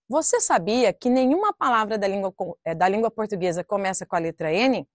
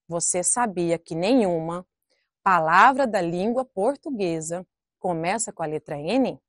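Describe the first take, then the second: First: The sentence is read quickly. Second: The sentence is read slowly and carefully. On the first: The speaker calls it wrong. "Eu vou ler aqui rapidamente" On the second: The speaker calls it right. "Então vamos ler corretamente?"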